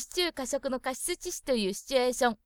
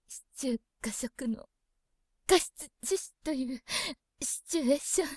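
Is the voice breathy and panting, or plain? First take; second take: plain; breathy. First: It is read in a plain, steady voice. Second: It is read in a breathy, panting voice.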